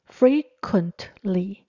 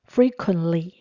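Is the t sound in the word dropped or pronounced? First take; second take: pronounced; dropped. First: The t sound is clearly pronounced. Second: The t sound is left out. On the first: The speaker calls it wrong. "如果我把t 念出来" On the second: The speaker calls it right. "如果不念t 的话"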